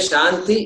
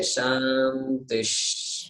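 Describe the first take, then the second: First: The word ends plainly on its final vowel. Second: The word ends with an added breathy hiss. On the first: The speaker calls it wrong. "then you are not pronouncing the Visarga" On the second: The speaker calls it right. "we must say Shantish"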